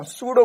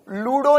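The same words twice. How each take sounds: First: "सूडो" with an S at the start; correct pronunciation. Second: "लूडो" with an L at the start; mispronounced word. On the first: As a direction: say "सूडो", opening on S rather than L. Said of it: "सूडो बोल रहा हूं". ("सूडो", शुरू में स की आवाज़) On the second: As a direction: say "लूडो", opening on a clear L sound. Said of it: "लूडो नहीं बोल रहा हूं". ("लूडो", शुरू में ल की आवाज़) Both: Shown as a demonstration.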